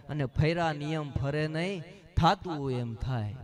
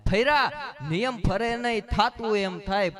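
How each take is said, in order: First: Said in the usual way. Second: Louder punchline repeat. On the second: Shown as a demonstration. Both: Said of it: "saying repeated louder".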